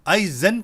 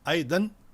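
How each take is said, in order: First: The middle consonant is a z sound. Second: The middle consonant is a d sound. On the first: The speaker calls it wrong. "आई जन कहेंगे तो बिल्कुल गलत है" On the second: The speaker calls it right. "दाल के साथ पढ़े... फिर भी ठीक है"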